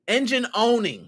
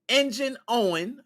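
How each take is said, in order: First: The second word ends with an -ing sound. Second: The second word ends without an -ing sound. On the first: The speaker calls it right. "There we go" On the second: The speaker calls it wrong. "I think that's how you say it"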